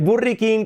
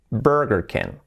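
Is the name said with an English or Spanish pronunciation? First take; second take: Spanish; English. First: It is said with a Spanish-style pronunciation. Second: It is said with an English-style pronunciation. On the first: The speaker calls it wrong. "el Burry King, que decimos aquí" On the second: The speaker calls it right. "¿cómo ha de ser pronunciado correctamente?"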